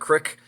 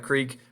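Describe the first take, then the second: First: It has a short vowel, like 'crick'. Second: It has a long vowel, like 'creek'.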